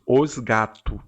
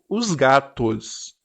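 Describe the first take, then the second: First: The plural s at the end is dropped. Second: The plural s at the end is pronounced. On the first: This is what the mouth actually says. "mas a boca diz os gatos" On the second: This is what the brain reads. "no meu cérebro leu os gatos"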